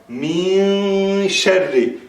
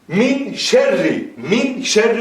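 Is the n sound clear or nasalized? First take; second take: nasalized; clear. First: The n is hidden and flows through the nose. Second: The n is pronounced fully and clearly. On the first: The speaker calls it right. "Dil ortada, genizden akıt" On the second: The speaker calls it wrong. "olur mu? Olmaz"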